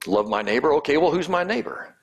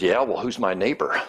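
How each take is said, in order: First: Higher, mock-incredulous snark rising on well; sarcastic retort. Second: Dry, dismissive question; a touch of sarcasm, brushing it off; mild snark. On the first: Law expert saving face before Jesus, sarcastic and snarky. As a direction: throw the question back sarcastically. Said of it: "He tries to get a little sarcasm, snarky response". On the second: Retold or imitated. Law expert answering Jesus back, mildly snarky. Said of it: "this snarky reply".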